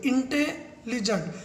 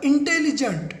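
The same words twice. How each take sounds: First: intelligent slowed and split into two parts with a pause in the middle; pause mid-word. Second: Said in the usual way. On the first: Shown as a demonstration. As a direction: say इंटे, pause, then लिजेंट. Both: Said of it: "मैं बीच में pause ले लेता हूँ".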